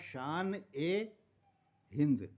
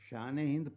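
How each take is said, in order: First: The linking vowel is pronounced fully and clearly. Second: The linking vowel is short and barely heard. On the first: "ए को उसके पूर्ण उच्चारण के साथ पढ़ते हैं" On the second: "शान हिंद पढ़ रहे हैं"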